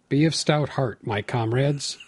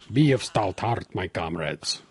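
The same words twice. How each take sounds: First: It is read in the speaker's normal accent. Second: It is read in a put-on Russian accent.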